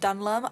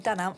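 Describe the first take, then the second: First: The name is said as Dun-lum. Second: The name is said as Dun-elm. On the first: The speaker calls it wrong. "I keep saying Dunlum" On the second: The speaker calls it right. "I'll say it correctly"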